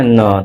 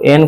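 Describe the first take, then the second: First: न as a short "nuh"; teacher demonstrating न as N; phonic N sound. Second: Said in the usual way. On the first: Shown as a demonstration. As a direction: sound out न, not the name "en". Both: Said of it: "एन को बोलना है न".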